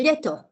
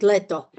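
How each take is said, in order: First: Leto with a softened l, as lieto; very soft l. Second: Said in the usual way. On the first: Shown as a demonstration. Showing students the over-soft version, palatalized lieto. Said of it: "very soft would be". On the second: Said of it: "I would pronounce it leto".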